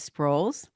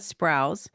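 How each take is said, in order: First: The vowel sounds like the 'oh' in 'roll'. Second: The vowel differs from the 'oh' in 'roll'. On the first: The speaker calls it right. "the last name is Sproles" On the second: The speaker calls it wrong. "not Sprouse"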